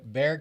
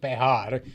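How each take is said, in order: First: It has one syllable with no h sound. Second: It has two syllables with an h sound. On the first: This is the English way of saying the name. "So in English, we call it Bear County" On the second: This is the Spanish way of saying the name. "It is called Behar in Spanish because the J is pronounced like an H"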